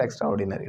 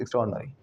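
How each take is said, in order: First: Extraordinary as "extra" plus "or-di-na-ry"; wrong pronunciation. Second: Extraordinary as ik-STROARD-nuh-ree; right pronunciation. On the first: Teacher showing students the mistake, split pronunciation. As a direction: keep every vowel of extra and ordinary in extraordinary. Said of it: "It's not extraordinary". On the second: Teacher correcting the class, merged pronunciation. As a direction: squeeze extraordinary into one word, stress STROARD. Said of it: "it's extraordinary". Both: Shown as a demonstration.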